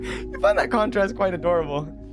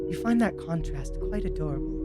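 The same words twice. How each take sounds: First: It is read in the speaker's natural voice. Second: It is read in a put-on character voice. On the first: The speaker calls it right. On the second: The speaker calls it wrong.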